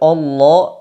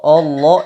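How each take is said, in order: The two takes are said the same way.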